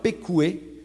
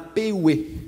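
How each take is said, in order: First: The word has a k sound in the middle. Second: The word has no k sound in the middle. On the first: This is the older expected form. "où au lieu d'avoir pécoué" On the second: This form shows borrowing from a neighbouring language. "on a péoué, où on n'a pas de K"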